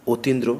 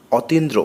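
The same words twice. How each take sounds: First: অতীন্দ্র said otindro with a rounded closed o; closed o take. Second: অতীন্দ্র with an open aw sound, ɔtindro; open vowel take. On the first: Teacher gives the correct closed-o reading of অতীন্দ্র, rounded o. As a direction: start অতীন্দ্র on a tight o, like ওতীন্দ্র. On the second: Teacher shows the open-vowel reading of অতীন্দ্র first, open ɔ. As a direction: say অতীন্দ্র starting on a wide open ɔ. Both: Shown as a demonstration. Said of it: "পূর্ববর্তী অকার ও আকারের মতো".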